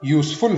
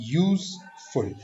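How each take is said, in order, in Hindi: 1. बलाघात दूसरे शब्दांश पर है। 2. बलाघात पहले शब्दांश पर है। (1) "यूजफुल हम नहीं बोलेंगे" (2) "फर्स्ट सेलेबल पे स्ट्रेस देना है"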